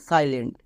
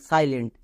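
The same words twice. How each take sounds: No difference in how they are said.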